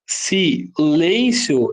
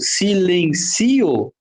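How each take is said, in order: First: The word ends in a diphthong, three syllables. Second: The word is split into four syllables. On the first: "ela cai nas regras das paroxítonas terminais de tongo" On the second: "Silencio fica com quatro sílabas"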